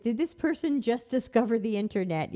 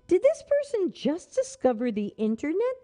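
First: Said in the usual way. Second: Mocking disbelief, rising; incredulous. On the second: Shown as a demonstration. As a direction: scoff at how late they are. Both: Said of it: "that's what I wanna say".

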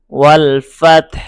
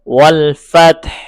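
First: ওয়াল ফাতহ repeated with a faint হা at the end; ওয়াল ফাতহ, last letter barely heard; light final ha again. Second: ওয়াল ফাতহ with the final হা faint; light final ha. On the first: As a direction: say ওয়াল ফাতহ louder and ending on a rise. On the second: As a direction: stress ফাতহ and let the হা fade lightly. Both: Shown as a demonstration. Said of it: "হা একদম শেষের হরফটি একটু হালকা উচ্চারণ".

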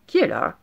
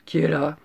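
First: Lightly voiced grandmother, higher and louder; grandmother calling out. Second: Lightly gruff wolf; wolf's big voice. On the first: Grandmother answering a knock, raised calling voice. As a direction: call to whoever knocks. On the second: Wolf answering the knock, lightly put-on big voice. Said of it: "la grosse voix du loup". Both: A narrator's reading.

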